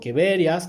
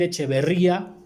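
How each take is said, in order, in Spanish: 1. El nombre se pronuncia de una forma no española. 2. El nombre se pronuncia a la manera española. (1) "como lo quieras pronunciar" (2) "a mí me gusta más decir echeverría, así en español"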